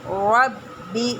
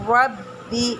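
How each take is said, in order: Both takes have the same delivery.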